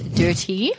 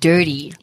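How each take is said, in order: First: The word is said without an American accent. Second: The word is said with an American accent. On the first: "I meant dirty" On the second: "I went into like American there"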